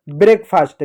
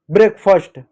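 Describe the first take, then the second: First: ब्रेकफास्ट with long aa, "brek-faast"; wrong pronunciation. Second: ब्रेकफास्ट with short uh, "brek-fust"; correct pronunciation. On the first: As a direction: stretch the second vowel of ब्रेकफास्ट to aa. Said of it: "गलत है". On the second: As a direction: shorten the second vowel of ब्रेकफास्ट. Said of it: "फास्ट नहीं". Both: Shown as a demonstration.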